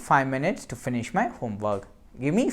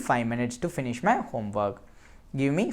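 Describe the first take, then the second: The two takes are said the same way.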